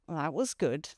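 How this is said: It is said with a marked, expressive intonation. "I have a facial expression and an intonation that conveys something else"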